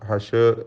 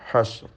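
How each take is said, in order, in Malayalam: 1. ഷ് ശബ്ദത്തിനു ശേഷം ഒരു ചെറിയ സ്വരാക്ഷരം ചേർക്കുന്നു. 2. ഷ് ശബ്ദം യാതൊരു സ്വരാക്ഷരവുമില്ലാതെ പിടിച്ചുനിർത്തുന്നു. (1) "ഹഷർ ഹഷർ എന്ന് ചലിക്കരുത്" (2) "ഷീനിൻ്റെ സുക്കൂന് ഹഷ്ർ എന്ന് സൂക്ഷിച്ചുകൊണ്ട്"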